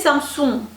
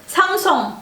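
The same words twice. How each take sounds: First: It is said with French pronunciation. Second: It is said with native Korean pronunciation. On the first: The speaker calls it wrong. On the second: The speaker calls it right.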